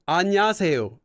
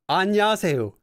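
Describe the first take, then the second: Both takes have the same delivery.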